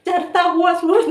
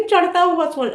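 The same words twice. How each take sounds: First: Slow, high चरता with a plain r, "charta"; mocked mispronunciation. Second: High चढ़ता with a retroflex flapped ṛh, "chaṛhta"; corrected pronunciation. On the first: Quoting a rival's slip to correct it, mocked mispronunciation. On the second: Shown as a demonstration. Correcting a rival's slip, emphatic corrected pronunciation. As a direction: stress चढ़ता, flapping the ṛh clearly. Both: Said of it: "चरता हुआ सूरज नहीं".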